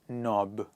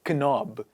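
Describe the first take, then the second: First: The word begins with no K sound. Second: The word begins with a spoken K sound. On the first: The speaker calls it right. "it is knob" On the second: The speaker calls it wrong. "It's not knob"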